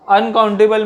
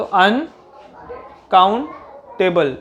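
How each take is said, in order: First: Said in the usual way. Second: uncountable very slowly, broken into अन, count, table with clear pauses; split into syllables. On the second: Shown as a demonstration. Teacher showing where each sound in uncountable stops, syllable by syllable. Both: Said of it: "अन में एक आवाज़ आ रही है".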